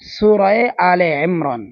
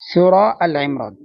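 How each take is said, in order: First: The word before Imran is said 'ale'. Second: The word before Imran is a short 'al'. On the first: The speaker calls it right. "আমরা যারা সঠিক বলি তা এভাবে বলি" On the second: The speaker calls it wrong. "যদি আপনি সূরা আল ইমরান বলে থাকেন তাহলে আপনি ভুল বলছেন।"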